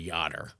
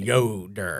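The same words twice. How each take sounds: First: The first vowel is said short. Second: The first vowel is said long. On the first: The speaker calls it wrong. "so incorrectly, people would always say Yoder" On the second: The speaker calls it right. "It should be a longer. You're right. It should be"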